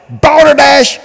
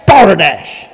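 First: Balderdash thrown out high; high scornful shout. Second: Dropped scornful. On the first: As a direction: spit the word balderdash. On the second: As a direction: let balderdash fall with disgust. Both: Real, not acted. Repeated denunciation.

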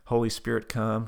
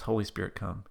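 First: Mildly firm prayer prompt; prayer leader's line. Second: Slightly softer echo of the prompt; repeated prayer line. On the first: Leading Tab in prayer, measured prompt. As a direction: lead a phrase for someone to repeat. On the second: Tab repeating the prayer, lightly voiced echo. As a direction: repeat it back obediently, understated. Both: Retold or imitated. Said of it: "repeat after me prayer".

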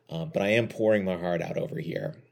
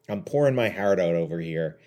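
First: Said in the usual way. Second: Slips into a slight Canadian accent on "pouring my heart out"; accidental Canadian. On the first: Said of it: "I don't know why I just sounded Canadian". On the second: Real, not acted. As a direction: let a touch of Canadian vowels creep in, unplanned. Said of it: "I just sounded Canadian".

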